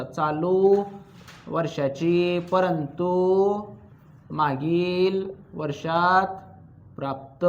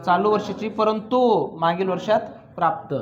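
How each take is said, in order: First: Word by word, very slow, with pauses between phrases; slow dictation. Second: Said in the usual way. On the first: Shown as a demonstration. Teacher dictating a phrase for students to copy, slow and spaced. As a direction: dictate it slowly so the class can write. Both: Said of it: "लिहा मग तेवढं शब्द लिहायचं आता".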